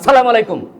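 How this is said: The greeting is barked loudly and harshly. It sounds like a scolding, not a greeting. The speaker calls it wrong. "মানে দমক দিছেন না সালাম দিছেন?"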